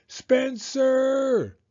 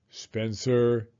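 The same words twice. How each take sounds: First: High, loud drawn-out call; yelled. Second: Said in the usual way. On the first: A narrator's reading. Mom calls her son on her way upstairs, yelling. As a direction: mom yelling a name up the stairs. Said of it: "she yelled on her way upstairs". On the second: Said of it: "his mother said".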